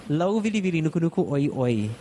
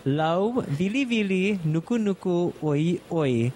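First: "Lau vili vili nuku nuku oi oi" run together at speed; said fast. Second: "Lau, vili, vili, nuku, nuku, oi, oi" in separate paced chunks; said slow. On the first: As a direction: rattle the fish name off in one breath. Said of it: "I'll say it fast first". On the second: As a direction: break the fish name into slow pieces for the learner. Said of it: "I'll say it one more time slow". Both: Shown as a demonstration.

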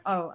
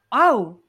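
First: Said in the usual way. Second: High, loud imitated "oh"; surprised realisation. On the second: Imitating man learning they married each other, surprised. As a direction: let the penny drop loudly.

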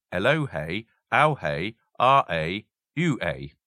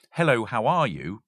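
First: "Hello, hey, ow, hey, ah, a, you, a" in Pig Latin, each word with its onset moved to the end plus "ay". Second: Said in the usual way. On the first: Shown as a demonstration. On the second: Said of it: "So, for example".

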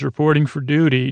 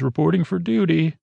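First: Said in the usual way. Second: Higher-pitched game unit catchphrase; imitating a StarCraft unit's line; StarCraft Terran unit. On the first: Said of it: "just like a Terran". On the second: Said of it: "like a Terran in, in StarCraft".

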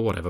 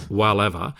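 First: Said in the usual way. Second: "whatever" with the first vowel of Walliams; playful mispronunciation. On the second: Shown as a demonstration. Co-host joking about the name Walliams, "whatever" playfully mispronounced. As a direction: say "whatever" as "wall-ever", echoing Walliams.

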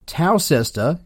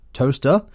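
First: "Towcester" sounded out as tow-SES-ter; pronounced as spelled. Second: "toaster" in two syllables, TOAST-er; local British pronunciation. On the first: Mocking British place names, "Towcester" read as tow-SES-ter. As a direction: read "Towcester" in three syllables, as written. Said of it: "is pronounced toaster". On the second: Showing how the English say it, "toaster" as TOAST-er. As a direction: shrink the town name to "toaster", TOAST-er. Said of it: "Towcester is pronounced toaster". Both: Shown as a demonstration.

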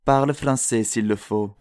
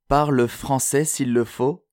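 First: Said in the usual way. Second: Slower, higher-pitched quoted advice; measured, insistent urging with raised pitch; corrected retake. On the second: Acted. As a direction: redo the line slowly, pitch lifted. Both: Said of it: "Pas comme ça".

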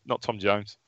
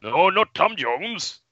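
First: Said in the usual way. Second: Slow, higher, drawn-out silly voice; comically drawn-out correction; odd put-on voice. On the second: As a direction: stretch out NOT TOM JONES in a strange higher voice. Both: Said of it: "What, what was that".

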